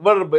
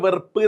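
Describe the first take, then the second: First: It is said as one syllable, ending in 'b'. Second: It is said as 've-ru-ppu', ending in 'ppu'. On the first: The speaker calls it right. "വെറുപ്പല്ല വെർബ്" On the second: The speaker calls it wrong. "വായിക്കലിന്റെ വെറുപ്പ്"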